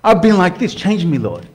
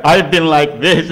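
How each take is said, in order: First: Heartfelt prayer. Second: Self-pitying moan. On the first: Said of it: "That means something because your heart's speaking". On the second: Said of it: "and you beat yourself up for a week". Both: Pretend.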